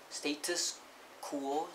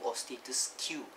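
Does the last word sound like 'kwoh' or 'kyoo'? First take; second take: kwoh; kyoo. First: The last word is said like 'kwoh'. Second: The last word is said like 'kyoo'. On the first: The speaker calls it right. "Status quo, Q U O" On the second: The speaker calls it wrong.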